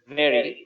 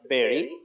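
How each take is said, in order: First: The word begins with a v sound. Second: The word begins with a b sound. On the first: The speaker calls it right. "the sound will be like very" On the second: The speaker calls it wrong. "not very"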